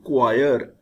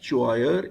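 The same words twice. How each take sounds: First: The word begins with a K sound. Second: The word begins with a CH sound. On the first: The speaker calls it right. "C H gives K, K sound" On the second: The speaker calls it wrong. "but it is not choir"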